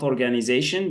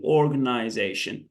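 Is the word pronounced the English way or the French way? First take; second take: French; English. First: It is pronounced the French way. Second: It is pronounced the English way. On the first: The speaker calls it wrong. "not organization. That's in French" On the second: The speaker calls it right. "we say here organization"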